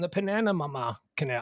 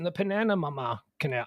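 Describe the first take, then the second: First: The name is said as Pennanima. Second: The name is said as Pennanima.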